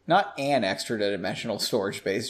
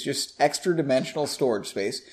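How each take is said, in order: First: An extra dimensional stressed on "an". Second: "extra" stressed, no article. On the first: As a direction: lean on the word "an". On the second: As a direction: lean on the word "extra". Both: Shown as a demonstration.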